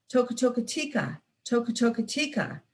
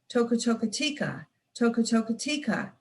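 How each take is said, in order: Both takes have the same delivery.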